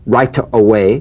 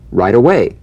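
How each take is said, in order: First: The T in right is a crisp, full T. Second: The T in right is softened toward a D. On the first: The speaker calls it wrong. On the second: The speaker calls it right.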